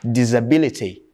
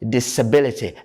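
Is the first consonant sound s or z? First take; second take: z; s. First: The first syllable has a z sound. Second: The first syllable has an s sound. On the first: The speaker calls it wrong. "people pronounce it as" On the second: The speaker calls it right. "you should say"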